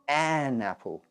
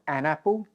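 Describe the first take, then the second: First: The article is full and stressed. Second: The article is short and unstressed. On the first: "the strong form" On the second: "the weak form"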